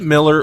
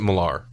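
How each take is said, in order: First: The last syllable is a weak 'er' sound. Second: The last syllable is a fuller 'ar' sound. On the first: "is it Miller" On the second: "or is it Millar? Because it's an A R"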